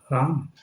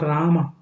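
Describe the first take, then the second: First: The name ends on the final consonant. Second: The name ends with an added vowel. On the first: The speaker calls it right. "what is the right pronunciation?" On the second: The speaker calls it wrong. "It is not"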